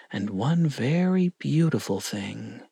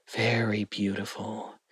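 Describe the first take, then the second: First: Said in the usual way. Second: Very beautiful said softer, lingering on very; softer, savoured. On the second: A narrator's reading. Narrator echoing Gollum's longing for the ring, softer and savoured. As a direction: hush down over very beautiful as if longing for it.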